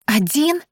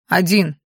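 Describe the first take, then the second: First: Rising, much higher, shocked question; horrified. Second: Said in the usual way. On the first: A narrator's reading. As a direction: gasp it out in horror. (испуганный возглас, с подъёмом) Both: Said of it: "воскликнула я в ужасе".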